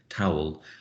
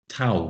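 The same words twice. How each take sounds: First: It is said in a received pronunciation accent. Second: It is said in an East London Cockney accent. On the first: "with my received pronunciation, I say towel, terribly B B C" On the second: "She she says towel"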